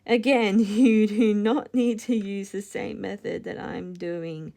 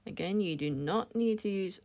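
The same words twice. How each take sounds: First: Laughing through a restarted line, louder; louder laughing retake after a slip. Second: Said in the usual way. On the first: Real, not acted. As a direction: giggle while repeating the instruction.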